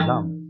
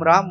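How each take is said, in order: First: The word begins with an L sound. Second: The word begins with an R sound.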